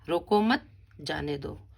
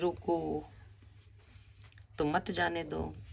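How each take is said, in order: First: The pause comes after the second word. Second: The pause comes after the first word.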